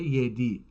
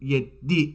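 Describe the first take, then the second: First: The d sound in the middle is short. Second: The d sound in the middle is held long. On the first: This is the Istanbul Turkish form. "در ترکیه یدی هستش" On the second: This is the Azerbaijani Turkish form. "این رو با تشدید میخونیم"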